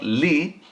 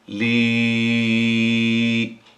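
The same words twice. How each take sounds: First: The vowel is short. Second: The vowel is held long. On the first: The speaker calls it wrong. "now is not li" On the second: The speaker calls it right. "You have to say li. One alif"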